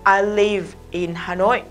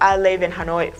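First: The words live and in are said separately. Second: The words live and in are run together. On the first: "nếu mình đọc bình thường ... Cái từ live mình phải trả ending sound âm về" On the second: "nếu cô dùng kỹ thuật nối âm ở đây thì cô sẽ nói là"

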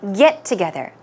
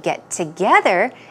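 First: The stress is on the word get. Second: The stress is on the word together. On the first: It is a noun meaning a gathering. "it's very important to stress get" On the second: It is a verb meaning to gather. "if you say get together and stress together"

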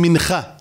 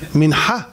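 First: The middle consonant is a velar scrape. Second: The middle consonant is a pharyngeal sound. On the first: The speaker calls it wrong. "יש כאלה אומרים מנחה ... חף" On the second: The speaker calls it right. "חט"

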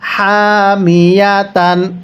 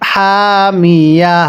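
First: The word ends with a full 'tan' syllable. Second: The word ends with a soft 'h' sound. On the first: The reading continues without stopping. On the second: The reader stops at this word.

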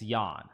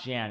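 First: The name does not rhyme with man. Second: The name rhymes with the English word man. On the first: The speaker calls it right. "it's Jan" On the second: The speaker calls it wrong. "it's not Jan ... or it's not like Jan the man"

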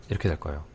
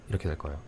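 Both takes have the same delivery.

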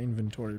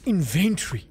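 First: It is said with an American-style pronunciation. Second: It is said with a non-American pronunciation. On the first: "I always say inventory" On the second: "It's inventory. We're not American"

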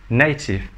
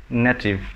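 No difference in how they are said.

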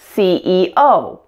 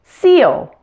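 First: The strongest stress falls on the last letter. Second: The strongest stress is not on the last letter. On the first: The speaker calls it right. "instead of CEO" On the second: The speaker calls it wrong. "I've heard so many non-native speakers say CEO"

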